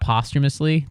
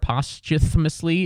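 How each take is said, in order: First: The 'th' sound in the middle is swallowed. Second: The 'th' sound in the middle is clearly pronounced. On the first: "you really swallow the T H in posthumously" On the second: "shouldn't it be pos, like, posthumously"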